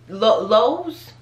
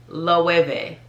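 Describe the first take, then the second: First: The word is said with no v sound. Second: The word is said with a v sound. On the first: The speaker calls it wrong. "that would be like just the natural inclination" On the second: The speaker calls it right. "So that W is really like a V"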